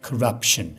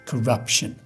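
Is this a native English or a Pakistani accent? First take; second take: native English; native English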